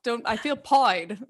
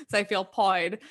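First: British slang pied said pʰɔɪd, rhyming with avoid; pied with a British-style oi vowel; mock British accent. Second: Said in the usual way. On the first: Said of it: "speak in an accent". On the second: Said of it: "That's, like, a big one".

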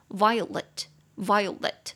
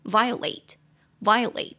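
First: "violet" slowly, with a reduced "lit" ending; slow demonstration. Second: "violate" slowly, with a full "late" ending; slow demonstration. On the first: Teacher repeating for students, "violet" slow with weak "lit". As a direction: keep the last syllable of "violet" short and weak. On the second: Teacher repeating for students, "violate" slow with full "late". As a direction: say "violate" ending on a clear long "ay-t". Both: Shown as a demonstration. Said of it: "我再念一次哦".

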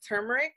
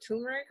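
First: "turmeric" with an r-coloured first syllable, TUR-mer-ick; TUR pronunciation. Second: "turmeric" with no first r, TOO-mer-ick; TOO pronunciation. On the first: Unsure speaker tries "turmeric" as TUR-mer-ick. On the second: Unsure speaker offers "turmeric" as TOO-mer-ick instead. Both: Real, not acted. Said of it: "I don't know if I'm saying that right".

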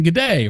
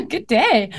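First: An attempt at an Australian "good day", the "day" falling; trying for an Aussie "good day". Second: American-sounding good day. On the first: Shown as a demonstration. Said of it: "No, that's not Australian". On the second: Retold or imitated. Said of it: "the way I said it was super American".

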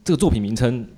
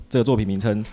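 Both takes have the same delivery.

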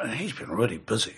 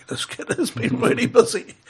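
First: Said in the usual way. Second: Higher, laughing through it, leaning on "has"; amused emphasis. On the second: Real, not acted. Telling the host about the boy's record, amused and laughing. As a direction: chuckle and stretch "has been" like it's a wry joke.

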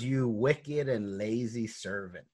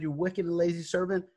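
First: Slow, weighty retold rebuke; a master's measured condemnation, imitated; stern rebuke. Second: Higher, quicker mock scolding; a master's indignant telling-off, imitated; retold rebuke. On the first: Master rebukes servant in parable. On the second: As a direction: scold lightly in a raised pitch. Master's rebuke repeated, more briskly.

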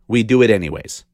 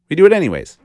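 First: Said in the usual way. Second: "We do it anyways" said again higher and louder, hitting "do"; punched repeat. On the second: Shown as a demonstration. Hammer the "do" home on the repeat. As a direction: podcaster repeating it to listeners, stress on "do".

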